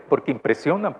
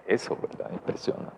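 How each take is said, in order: First: Said in the usual way. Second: Hushed whisper. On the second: Shown as a demonstration. Preacher whispering to the congregation in awe. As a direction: breathe it out unvoiced, almost secret. Repeats the word for effect.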